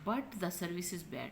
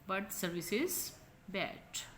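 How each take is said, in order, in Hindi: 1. शब्द 'but' पूरा और साफ़ बोला गया है। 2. शब्द 'but' छोटा और हल्का बोला गया है।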